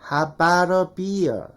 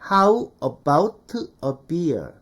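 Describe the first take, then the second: First: It is said linked and reduced, like native speakers. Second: It is said in a syllable-by-syllable Korean style.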